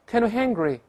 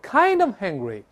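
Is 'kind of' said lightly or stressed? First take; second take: lightly; stressed. First: The words 'kind of' are said lightly. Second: The words 'kind of' are stressed. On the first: The speaker calls it right. "这kind of 一带而过" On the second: The speaker calls it wrong. "不要重读，不要这么多I'm kind of hungry"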